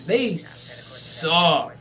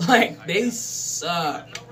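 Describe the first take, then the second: First: Said in the usual way. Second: Slow, dragged-out they suck; drawn-out emphasis. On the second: Shown as a demonstration. Vlogger repeating his verdict on bad teams, slow and drawn out. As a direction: stretch every word for effect.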